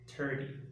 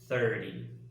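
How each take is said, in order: First: It begins with a plain T sound. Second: It begins with a breathy TH sound. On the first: The speaker calls it wrong. "pronounce it like a normal T" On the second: The speaker calls it right. "when in reality they should be"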